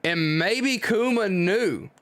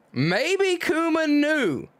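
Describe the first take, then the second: First: Said in the usual way. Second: Much higher and slow, leaning on maybe; emphatic realization. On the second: Shown as a demonstration. Reader restating his Kuma theory as it dawns, high and slow. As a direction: stretch out "Maybe Kuma knew" as it dawns on you.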